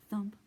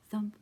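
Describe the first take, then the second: No difference in how they are said.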